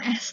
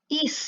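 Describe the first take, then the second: First: The word begins with a short 'eh' sound. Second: The word begins with a long 'ee' sound. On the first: The speaker calls it wrong. "bukan S" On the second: The speaker calls it right. "tapi east"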